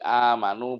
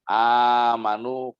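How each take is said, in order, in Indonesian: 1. Vokal panjang dibaca selama dua ketukan. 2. Vokal panjang dibaca selama empat ketukan. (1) "boleh kosor" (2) "boleh empat harokat"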